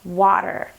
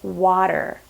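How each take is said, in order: First: The middle consonant is a soft D sound. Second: The middle consonant is a soft D sound.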